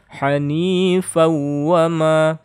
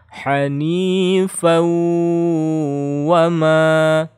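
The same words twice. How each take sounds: First: The w sound is said quickly without holding. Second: The w sound is doubled and held nasally. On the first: The speaker calls it wrong. "Kalau yang baca cepat, tasydidnya salah ya" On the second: The speaker calls it right. "harus dibaca bertasydid dan digunnahkan"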